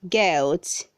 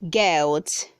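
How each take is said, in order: The two takes are said the same way.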